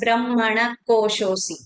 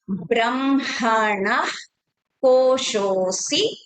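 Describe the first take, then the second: First: No breathy 'ah' sound follows brahmana. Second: A breathy 'ah' sound follows brahmana. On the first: The speaker calls it wrong. "We should not be chanting it as" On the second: The speaker calls it right. "Ah sound will come"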